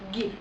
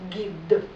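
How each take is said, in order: First: The final d is devoiced, sounding like t. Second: The final d is fully voiced. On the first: The speaker calls it wrong. "не повинно звучати як «ти». Не «гіт»" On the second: The speaker calls it right. "а «гід»"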